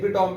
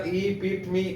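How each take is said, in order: First: "epitome" said as epi-tome, with the end rhyming with home; alternative pronunciation. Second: "epitome" said in four syllables, ee-PIT-uh-mee, ending in ee; careful pronunciation. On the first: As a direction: show how some people say "epitome" as epi-tome. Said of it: "कुछ लोग इसे epitome भी कहते हैं". ("epitome" को "एपी-टोम" की तरह बोलें, जैसे कुछ लोग कहते हैं) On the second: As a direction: say "epitome" slowly and clearly, ending on a long ee. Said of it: "इसकी प्रोनाउंसिएशन देखिएगा". ("epitome" को चार हिस्सों में, आख़िर में "मी" के साथ साफ़ बोलें)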